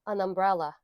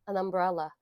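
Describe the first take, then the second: The two takes are said the same way.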